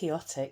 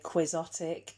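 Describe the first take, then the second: First: It is pronounced to sound like 'Quixote'. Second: It is pronounced not to sound like 'Quixote'. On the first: This is the pronunciation the speaker prefers. "that's how I'm going to say it, Quixotic, because it's like Don Quixote" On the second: This is how many other people say it. "I know a lot of people say Quixotic"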